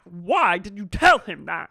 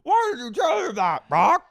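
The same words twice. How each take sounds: First: Loud demand at usual pitch; mock outraged question. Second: Very high, loud mock shriek; mock outraged shriek. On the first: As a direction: confront him with a raised voice. Retelling Sheena confronting Brock. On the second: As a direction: screech it at him in exaggerated outrage. Retelling Sheena screaming at Brock.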